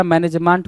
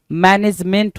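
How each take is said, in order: First: Man-ej-MAANT; wrong management. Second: Man-ej-MENT; correct management. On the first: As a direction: say मैनेजमेंट with open "maant". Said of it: "मैनेजमेंट कुछ नहीं होता". (मैनेजमेंट को "मैनेजमांट" बोलें) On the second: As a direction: say मैनेजमेंट with "ment" ending. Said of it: "मैनेजमेंट होता है". (मैनेजमेंट में "मेंट" साफ़ बोलें) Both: Shown as a demonstration.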